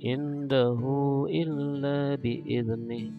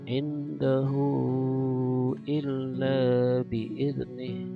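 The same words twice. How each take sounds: First: The vowel after 'h' is kept short. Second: The vowel after 'h' is held long. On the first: "atau pendek seperti matobi" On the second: "boleh panjang"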